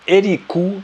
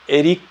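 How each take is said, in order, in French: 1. Pas d'arrêt avant le k, et le u final est clair. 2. Un bref arrêt avant le k, et le u final est faible. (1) "ce dernier ou, il fait quand même un peu tâche" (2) "Il va juste marquer une petite pause ... il va légèrement atténuer la voyelle"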